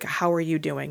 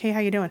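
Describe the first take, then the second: First: It is asked sincerely, with genuine interest. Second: It is asked casually, as a throwaway greeting.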